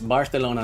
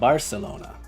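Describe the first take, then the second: First: The c is said as a th sound. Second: The c is said as an s sound. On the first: The speaker calls it right. "spelled the C as a T H ... it's Barcelona" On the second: The speaker calls it wrong. "not Barcelona"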